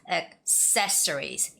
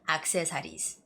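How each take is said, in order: First: The stress falls on the second syllable. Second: The stress does not fall on the second syllable. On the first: The speaker calls it right. "it's really important to keep the second syllable stress" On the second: The speaker calls it wrong.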